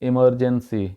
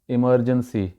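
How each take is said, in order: First: The first vowel sounds like 'ih'. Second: The same.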